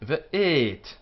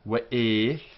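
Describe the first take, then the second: First: It begins with a V sound. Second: It begins with a W sound. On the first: "But we are not Iraqis, we are Spanish and Portuguese" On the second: This is how it is said in Iraq. "In Iraq, this would be the pronunciation"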